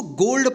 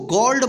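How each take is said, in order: First: "गोल्ड" with a long o, as in go; correct long o. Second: "गोल्ड" said as gawld, open vowel; wrong open vowel. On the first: Teacher telling learners how to read it, "गोल्ड" with long o. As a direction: say "गोल्ड" rhyming with old. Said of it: "इसको गोल्ड पढ़ना है". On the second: Teacher showing learners what not to read, "गोल्ड" with open aw. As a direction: misread "गोल्ड" with aw in place of o. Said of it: "इसको गोल्ड मत पढ़िए". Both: Shown as a demonstration.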